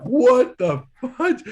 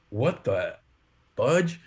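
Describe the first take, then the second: First: Loud, high, drawn-out disbelief; shocked outcry. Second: Halting disbelief, a gap before the last word; retold bewilderment. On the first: Retold or imitated. Roommates react to a swarm of fruit flies, loud shocked outcry. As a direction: cry out slowly in mock horror. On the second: Roommate in the kitchen finds something odd, halting bewilderment. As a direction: imitate a roommate stopped mid-thought, puzzled.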